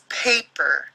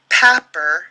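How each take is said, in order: First: The first vowel is long, saying its name. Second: The first vowel is short, as in cat. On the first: The speaker calls it right. "The word is paper. So the syllable ends after the A, making it a long sound" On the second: The speaker calls it wrong. "if we did it as a closed syllable, it'd say papper, and that's not the word"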